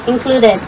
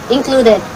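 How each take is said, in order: The two takes are said the same way.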